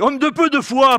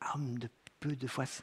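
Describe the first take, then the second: First: It is said in a harsh, reproachful tone. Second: It is said in a gentle, encouraging tone. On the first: It is a condemnation. The speaker calls it wrong. "c'est dur" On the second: It is encouragement to make progress. The speaker calls it right. "ce n'est pas une condamnation. Il l'encourage"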